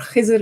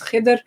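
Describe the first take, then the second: First: The name is said in its Urdu form. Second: The name is said in a non-Urdu form.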